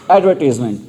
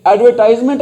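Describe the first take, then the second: First: एडवर्टाइजमेंट as "ad-ver-tiz-ment", no "eye" sound; correct pronunciation. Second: एडवर्टाइजमेंट with "tize" rhyming with "eyes"; incorrect pronunciation. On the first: Teacher giving students the correct form, एडवर्टाइजमेंट with an "i" vowel in "tiz". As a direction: say the third syllable of एडवर्टाइजमेंट as "tiz", falling at the end. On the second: Teacher rejecting a common mistake, एडवर्टाइजमेंट said as "ad-ver-TIZE-ment". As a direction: give एडवर्टाइजमेंट an "eye" vowel in its third syllable.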